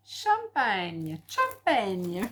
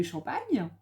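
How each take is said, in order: First: "champagne" drawn out, each syllable savoured; playfully sounded-out word. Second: Said in the usual way. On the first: Pretend. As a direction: show off how you can say "champagne". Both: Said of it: "ça, j'arrive à le dire".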